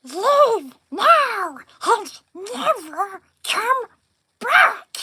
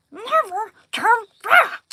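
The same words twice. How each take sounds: First: High, loud creature screech; Smeagol impression. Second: High loud screeching creature; Smeagol again. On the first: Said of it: "I'll do Smeagol". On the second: Retold or imitated. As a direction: screech harder, fix the take. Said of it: "that was bad".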